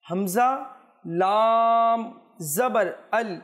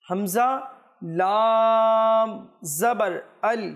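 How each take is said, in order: No difference in how they are said.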